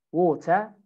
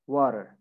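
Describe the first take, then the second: First: British "water", "waw-tuh" with no final R; British accent. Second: American "water" with R sounded at the end; American accent. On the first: Teacher drills British "water", no R at the end. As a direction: say "water" the British way, crisp T, R dropped. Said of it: "in British". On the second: Teacher models American "water" for students, final R sounded. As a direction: say "water" the American way, "wah-der". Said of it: "In America". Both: Shown as a demonstration.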